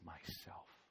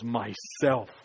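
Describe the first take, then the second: First: It is said in a soft whisper. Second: It is said with joy in the voice.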